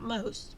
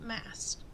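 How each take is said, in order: First: The vowel sounds like the 'o' in 'most'. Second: The vowel sounds like the 'a' in 'mast'. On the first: The speaker calls it wrong. "not most" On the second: The speaker calls it right. "but Mast"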